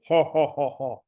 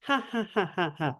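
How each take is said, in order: First: A hint of a Bowser laugh, slightly lower; lightly mock the big villain's chuckle. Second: Peach laughing. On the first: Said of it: "this is like Bowser laughing". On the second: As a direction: lift the laugh up like a princess. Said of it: "as opposed to Peach laughing". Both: Shown as a demonstration.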